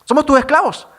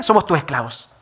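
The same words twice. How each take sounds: First: Higher and louder, "Somos tus esclavos" pressed hard; insistent repeat. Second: Said in the usual way. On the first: Retold or imitated. Brothers begging José for mercy, insistent and louder.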